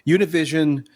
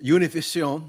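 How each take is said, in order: First: It is said with an American English accent. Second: It is said with a Spanish accent. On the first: "I'll use my uh, gringo pronunciation" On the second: "I guess that would be the more managed"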